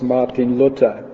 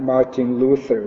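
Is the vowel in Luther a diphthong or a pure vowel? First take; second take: pure vowel; diphthong. First: The vowel in Luther is a pure vowel. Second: The vowel in Luther is a gliding diphthong. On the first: The speaker calls it right. "It was Martin Luther, please" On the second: The speaker calls it wrong. "Not Martin Luther"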